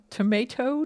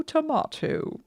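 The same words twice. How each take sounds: First: Tomato with a long ay sound, to-MAY-to; tomato said the American way, to-MAY-to. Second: Tomato with an open ah sound, to-MAH-to, pitched high; tomato said the British way, to-MAH-to. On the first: Showing viewers the American tomato. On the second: Showing viewers the British tomato. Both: Shown as a demonstration. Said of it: "let's throw in some difficult words".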